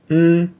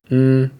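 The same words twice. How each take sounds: First: The hum is on a high pitch. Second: The hum is on a middle pitch. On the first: "pronounced as a high tone or tone one" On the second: "With a mid-tone or tone two"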